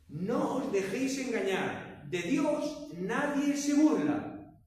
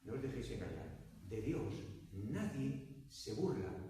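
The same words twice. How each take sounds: First: It is said at a louder volume. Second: It is said at a normal, softer volume.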